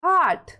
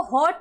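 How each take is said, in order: First: हार्ट as "haat", open vowel for hot. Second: हॉट misread as "hote", long O; wrong long O. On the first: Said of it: "इसको क्या पढ़ना है". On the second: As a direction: say हॉट with a round "oh". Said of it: "नहीं पढ़ना है". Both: Shown as a demonstration.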